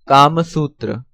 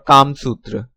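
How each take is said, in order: First: It is said the Sanskrit way. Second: It is said the Hindi way. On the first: "Sanskrit pronunciation" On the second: "Hindi pronunciation"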